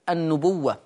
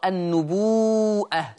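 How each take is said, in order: First: The word has no glottal stop and a short waw. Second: The waw is lengthened, then a glottal stop follows. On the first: "اللفظ الآخر النبوة" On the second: "تقرأ النبوءة وتمد الواو مدا مشبعا مدا متصلا"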